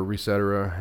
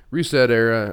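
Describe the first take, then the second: First: "Resetera" as one word, ending in a reduced "-era"; run-together pronunciation. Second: "Reset Era" as two words, a full "Era" at the end; two-word pronunciation. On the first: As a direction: blend "Resetera" together, rhyming loosely with et cetera. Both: Shown as a demonstration. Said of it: "however you wanna say it".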